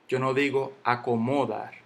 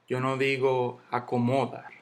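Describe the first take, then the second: Both takes have the same delivery.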